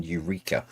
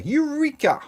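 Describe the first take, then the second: First: Soft, deadpan "Eureka."; flat quiet Eureka. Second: High, excited shout of Eureka!. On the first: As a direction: throw away "Eureka." quietly, under your breath. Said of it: "running around the streets naked going". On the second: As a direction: cry Eureka! like a triumphant discovery. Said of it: "said to have shouted in the streets". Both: Retold or imitated.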